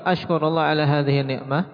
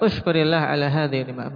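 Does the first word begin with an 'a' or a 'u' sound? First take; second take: a; u. First: The first word begins with an 'a' sound. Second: The first word begins with a 'u' sound. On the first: The speaker says that he himself is thankful. "aku bersyukur pada Allah atas nikmat ini" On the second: The speaker tells others to be thankful. "bersyukurlah kepada Allah atas nikmat ini"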